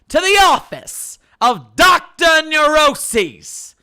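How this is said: It is said in a put-on character voice.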